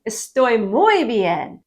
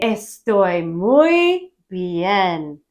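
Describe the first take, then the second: First: Slow, even "Estoy muy bien" after the breakdown; slow repeat. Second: Very slow, every syllable of "Estoy muy bien" drawn out; slow teaching demo. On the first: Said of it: "Estoy, I am, muy, very bien". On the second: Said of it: "You're gonna say". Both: Shown as a demonstration.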